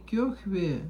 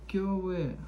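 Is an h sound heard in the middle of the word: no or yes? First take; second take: yes; no. First: An h sound is heard mid-word. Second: No h sound is heard mid-word. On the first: The speaker calls it wrong. "Не кёхве" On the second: The speaker calls it right. "Без, без х"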